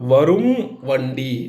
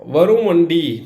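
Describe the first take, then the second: First: The two words are said separately, apart. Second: The two words are joined, final m shortened. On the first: "தனியாக சொல்லும்போது" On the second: "சேர்த்து சொல்லி"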